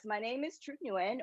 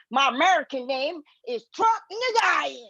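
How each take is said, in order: First: Said in the usual way. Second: "Truc Nguyen" said as "Truck In-ga-ya", Americanized, a bit higher and louder; Americanized name. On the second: Shown as a demonstration. Comic tells the crowd her American name: "Truc Nguyen" said as "Truck Ingaya".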